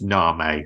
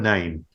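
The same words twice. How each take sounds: First: It sounds unlike the English word 'name'. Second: It sounds like the English word 'name'. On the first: The speaker calls it right. "I imagine it's pronounced Name or something like that" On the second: The speaker calls it wrong. "I know it's not pronounced like this, but it's spelt like this"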